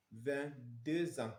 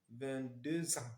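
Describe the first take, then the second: No difference in how they are said.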